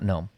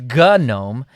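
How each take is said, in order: First: The G at the start is silent. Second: The G at the start is pronounced. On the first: The casual pronunciation that forum users reject. "not GNOME" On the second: The original, insisted-upon pronunciation. "someone will definitely tell you that it's GNOME"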